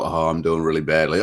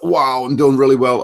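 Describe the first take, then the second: First: Sinking disappointment; deflated. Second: Upbeat and louder, pleased with himself; thrilled about how it's going; excited. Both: Retold or imitated. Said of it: "I felt like".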